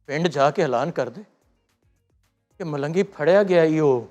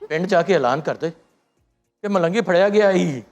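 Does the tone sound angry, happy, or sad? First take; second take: sad; happy. First: It is said in a sad mood. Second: It is said in a happy mood.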